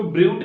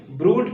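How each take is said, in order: First: ब्रूट mispronounced as bryoot; ब्रूट said with "you" instead of oo; wrong yoo pronunciation. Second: ब्रूट as broot, no y-glide; ब्रूट said broot, the corrected reading; correct oo pronunciation. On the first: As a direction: slip a y-glide into ब्रूट, bryoot. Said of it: "इसको ब्रूट नहीं पढ़ेंगे". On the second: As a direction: give ब्रूट a pure long oo. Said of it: "क्या पढ़ेंगे". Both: Shown as a demonstration.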